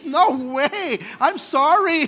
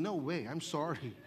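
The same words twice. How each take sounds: First: No way, I'm sorry blurted out loud and high; a scandalised churchgoer backing off loudly; loud refusal. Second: No way, I'm sorry dropped low and soft; a low, soft aside turning it down; quiet refusal. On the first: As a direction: recoil from it with a loud, high protest. Churchgoer refusing spit healing. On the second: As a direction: mutter the refusal under your breath. Same refusal said again quietly. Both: Acted.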